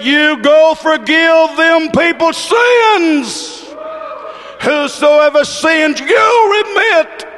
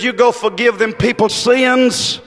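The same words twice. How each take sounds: First: Slow, high preacher's shout; impassioned preached shout. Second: Said in the usual way. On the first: Retold or imitated. Preacher voicing Jesus granting power to forgive, slow ringing shout. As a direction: hammer out the command, high and drawn out. Repeated command at full preaching force.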